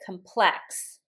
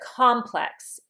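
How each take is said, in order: First: The stress is on the second syllable. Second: The stress is on the first syllable. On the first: It is the verb meaning to complicate. "if I pronounce it complex, then it's a verb" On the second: It is the noun. "instead of complex"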